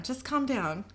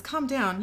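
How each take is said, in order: First: Slow, placating request; calm them down slowly; soothing. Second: Higher, incredulous repeat; indignant echo. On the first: Becky soothes tied-up Sam. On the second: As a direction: throw the words back in mild outrage. Sam throws her words back indignantly. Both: A narrator's reading.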